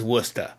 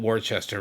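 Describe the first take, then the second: First: "Worcester" said short as WUS-ter; the local way, "Worcester" as wuss-tuh; "Worcester" clipped to two syllables, WUS-tuh; local Massachusetts pronunciation. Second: "Worcester" said as spelled, wor-ches-ter; "Worcester" read literally as wor-ches-ter; spelling pronunciation. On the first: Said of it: "'cause that's how we say things up there". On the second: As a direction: sound out every letter of "Worcester". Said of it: "of course, it's spelled Worcester". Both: Shown as a demonstration.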